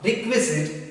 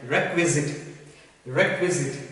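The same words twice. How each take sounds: First: Requisite said the wrong way, first syllable as "rik"; wrong pronunciation. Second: Requisite as "REK-wizit", falling at the end; correct pronunciation. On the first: Teacher showing learners what it is not, requisite mispronounced with "rik". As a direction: say "requisite" with a short i opening, "RIK-wizit". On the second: Teacher modelling the word for learners, requisite pronounced "REK-wizit". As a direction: say "requisite" clearly with an open "rek" first. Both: Shown as a demonstration. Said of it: "we have to pronounce it like".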